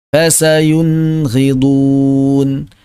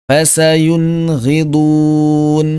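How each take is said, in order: Both takes have the same delivery.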